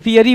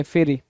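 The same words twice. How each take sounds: First: फियरी said as "fee-yuh-ree"; misspelling read out. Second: Said in the usual way. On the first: Shown as a demonstration. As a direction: sound out फियरी with a long "fee" first. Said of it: "यहाँ पे फियरी बोल रहा है". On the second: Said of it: "क्या बोलना चाहिए था?".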